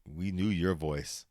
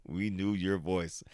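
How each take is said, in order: Both takes have the same delivery.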